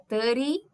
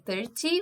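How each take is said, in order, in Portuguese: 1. O som do T é omitido. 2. O som do T é claramente pronunciado. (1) "sem o T" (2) "Ao invés de"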